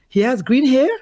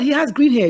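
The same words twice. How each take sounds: First: It sounds curious and interested. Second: It sounds shocked and disapproving. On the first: The parent is open to hearing more. The speaker calls it right. "You say, wow" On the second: The parent objects to the boyfriend. The speaker calls it wrong. "What you do is you don't say, oh my God"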